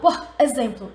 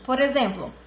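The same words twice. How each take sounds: First: The two words are said separately. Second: The two words are run together. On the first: The speaker calls it wrong. "eu não falo por exemplo" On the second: The speaker calls it right. "Eu emendo por exemplo"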